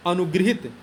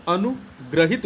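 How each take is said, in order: First: अनुगृहित with "gri" in the middle; wrong form. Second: Slow अनुग्रहित with a clear "gra"; correct form. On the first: Teacher reads the misspelt word, अनुगृहित with "gri". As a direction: say अनुगृहित with an i after gr. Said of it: "ये अनुगृहित नहीं होता". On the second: Teacher gives students the correct word, slow अनुग्रहित with "gra". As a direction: stretch अनुग्रहित, an a after gr. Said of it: "अनुग्रहित होता है". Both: Shown as a demonstration.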